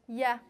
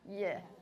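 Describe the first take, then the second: First: The syllable is said in a plain voice. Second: The syllable is said in a creaky voice. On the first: "Imagine you're pronouncing the palatal, palatal glide" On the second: "try adding a little bit creakiness to that"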